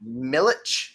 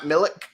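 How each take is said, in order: First: "Milich" ending in a ch sound; correct name pronunciation. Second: "Milik" ending in a hard k; mistaken name pronunciation. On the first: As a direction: say "Milich" with a final ch, questioning lift. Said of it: "not Milik". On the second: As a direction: say "Milik" with a final k instead of ch. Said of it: "I can't say the last name". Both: Shown as a demonstration.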